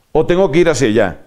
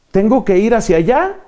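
First: Quick second option, ALLÁ dropping at the end; falling alternative. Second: ALLÁ lifted high at the end, left open; rising question. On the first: Lost person offering a passer-by the other direction, falling on "allá". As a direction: hurry through and let "allá" fall. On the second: Lost person asking a passer-by which way, rising on "allá". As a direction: raise the pitch on "allá" as the first option. Either-or question, first option. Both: Acted.

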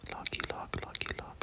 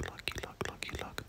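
The two takes are said the same way.

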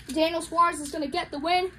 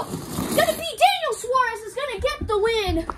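First: Said in the usual way. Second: High-pitched winner announcement; excited race call. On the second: Real, not acted. Commentator calling the winner of the heat, excited. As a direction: burst out with the winner, voice raised.

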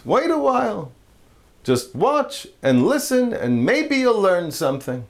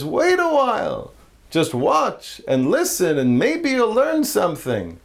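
First: A hint of a patient old rabbi. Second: Put-on old rabbi, slower. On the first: Rabbi voiced in joke. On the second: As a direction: stretch it out like a wise old rabbi. Rabbi voiced in joke, slower.

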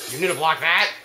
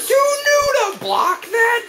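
First: Said in the usual way. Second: Very high, slow, disbelieving shriek; outraged screech. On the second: Real, not acted. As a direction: stretch it into an incredulous screech. Outraged at blocked move, then repeats.

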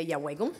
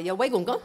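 First: Yawegum as a plain statement, falling; Mohawk word. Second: Yawegum gun asked louder, rising on gun; Mohawk question. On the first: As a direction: say Yawegum flat, no question. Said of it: "you can say". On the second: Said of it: "I can put gun on there, and I've got a question". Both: Shown as a demonstration.

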